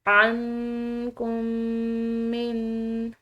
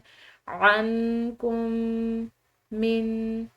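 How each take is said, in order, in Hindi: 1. दोनों m ध्वनियाँ मिलकर एक हो जाती हैं। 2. दोनों m ध्वनियाँ अलग-अलग बोली जाती हैं। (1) "दो मीम को एक मीम की तरह अदा करते हैं" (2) "अलग अलग पढ़ें"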